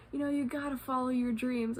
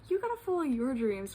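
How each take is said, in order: First: Imitating an encouraging stranger, higher pitch; lightly hyped pep talk; retold hyping up. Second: Higher-pitched echo, leaning on the opening words; hyping back. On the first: Fellow traveler cheers on the speaker, mildly hyped encouragement. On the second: Retold or imitated. Speaker returns the stranger's encouragement, retold hyped-up echo. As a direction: toss the pep talk back, pitch starting high and falling. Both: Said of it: "we were hyping each other up".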